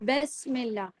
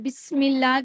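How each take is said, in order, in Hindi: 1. पहला स्वर एक लंबा ए है। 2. पहला स्वर एक स्पष्ट छोटा इ है।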